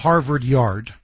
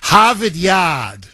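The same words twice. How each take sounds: First: It is said in the speaker's ordinary accent. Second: It is said in a South Boston accent.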